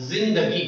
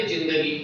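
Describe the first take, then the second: First: जिंदगी with a buzzing Urdu z at the start; Urdu pronunciation. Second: Said in the usual way. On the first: Shown as a demonstration. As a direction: say जिंदगी as "zindagi", with z instead of j. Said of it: "वो इसका उच्चारण करेगा". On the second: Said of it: "लेकिन जब हम इसका उच्चारण कर रहे थे".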